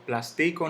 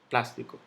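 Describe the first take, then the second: First: The stress is not on the third-to-last syllable. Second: The stress is on the third-to-last syllable. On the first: The speaker calls it wrong. "yo no digo plástico" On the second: The speaker calls it right. "la antepenúltima sílaba, donde cae el golpe de voz"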